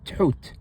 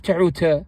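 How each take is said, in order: First: Tuhut said with a short pause after the t; correct version. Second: Tehuta said with an extra vowel at the end; wrong version. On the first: Teacher correcting the wrong take with the right one. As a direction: clip Tuhut, pausing briefly after the t. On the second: Teacher showing the mistake with a final vowel. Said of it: "Not tehuta". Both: Shown as a demonstration.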